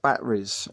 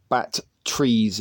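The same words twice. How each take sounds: First: Said in the usual way. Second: "bat trees" in two slow, separate beats; accent joke pronunciation. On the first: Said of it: "a bit funny to say". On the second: Shown as a demonstration. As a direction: say "bat trees" slowly, as bat plus trees. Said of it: "making fun of my accent".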